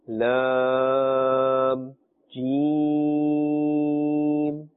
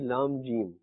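First: The letter names are drawn out and lengthened. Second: The letter names are said short, without lengthening. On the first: The speaker calls it right. "elongate the sound, prolong the sound, pull the sound" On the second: The speaker calls it wrong. "If we just say Lam Jeem"

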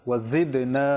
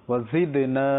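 No difference in how they are said.

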